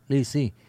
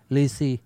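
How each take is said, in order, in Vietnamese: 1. Từ này được nói theo cách phát âm Quan Thoại. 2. Từ này được nói theo cách phát âm Quan Thoại.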